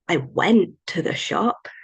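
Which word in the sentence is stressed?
went. The word 'went' carries the stress. The going already happened in the past. "might imply that I already went in the past, not going again"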